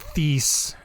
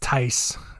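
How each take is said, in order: First: The name does not rhyme with 'ice'. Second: The name rhymes with 'ice'. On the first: The speaker calls it wrong. "I'm gonna keep saying it wrong just to annoy you" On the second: The speaker calls it right. "It's probably Tice"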